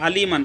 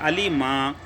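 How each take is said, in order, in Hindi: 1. शब्द नासिक 'an' ध्वनि पर खत्म होता है। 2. शब्द एक लंबे खुले स्वर पर खत्म होता है। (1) "दो ज़बर अलीमन" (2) "एक ज़बर पढ़ेंगे"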